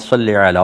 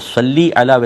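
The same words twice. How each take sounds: First: The word ends in an 'ay' vowel. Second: The word ends in an 'ee' vowel. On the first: The speaker calls it wrong. "मजहूल जो लहजा है वो तो सल्ले का है" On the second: The speaker calls it right. "सही तलफ़ुज़ है"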